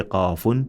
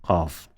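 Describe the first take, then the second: First: "qafun" with the "un" sounded after f; full linking ending. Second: "qaf" stopped on f, lower and softer; silent ending. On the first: Teacher showing linking, "qafun" read out in full. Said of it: "double sound clearly". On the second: Teacher showing stopping, "qaf" with silenced ending. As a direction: drop the "un" and close "qaf" on f. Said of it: "apply silence to it". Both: Shown as a demonstration.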